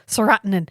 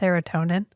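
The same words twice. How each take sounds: First: The word gets an odd, nonstandard pronunciation. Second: The word gets its ordinary standard pronunciation. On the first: The speaker calls it wrong. "He just goes serotonin" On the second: The speaker calls it right. "But that's serotonin"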